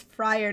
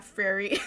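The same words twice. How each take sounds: First: Friar said with emphasis as two syllables, "FRY-er"; correct name pronunciation. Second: Frary, said "FRAIR-ee" in place of Friar; mistaken name pronunciation. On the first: Reader correcting a misread name, Friar stressed as "FRY-er". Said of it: "not Frary". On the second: Reader quoting their own misreading, Frary said "FRAIR-ee". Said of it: "It says Friar, not". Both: Shown as a demonstration.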